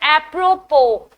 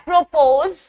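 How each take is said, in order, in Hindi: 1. अंतिम S ध्वनि silent है। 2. अंतिम S ध्वनि बोली जाती है। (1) "the S is silent. It's apropos" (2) "It's not apropos"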